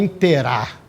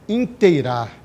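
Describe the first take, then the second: First: The 'ei' is reduced to a plain e. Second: The 'ei' diphthong is fully pronounced. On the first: The speaker calls it wrong. "o verbo não é" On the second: The speaker calls it right. "O verbo é"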